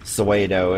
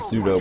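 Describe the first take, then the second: First: The word is pronounced in a deliberately odd way. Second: The word is pronounced the usual way.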